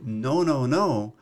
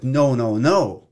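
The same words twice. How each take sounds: First: It is said plainly, at conversational volume. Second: It is said louder and dramatically exaggerated. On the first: It suits talking to one person nearby. The speaker calls it wrong. "If I'm saying to you" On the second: It suits reaching a large audience. The speaker calls it right. "I have to be like"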